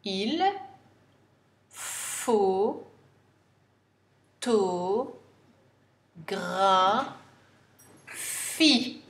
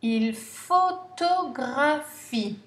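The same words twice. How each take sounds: First: Photographie dragged out extremely slowly; very slow dictation. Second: Photographie said slowly and clearly; slow dictation. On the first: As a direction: spell out the sounds of photographie for dictation. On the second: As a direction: read il photographie slowly for pupils. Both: Shown as a demonstration. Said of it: "N'oubliez pas le E muet".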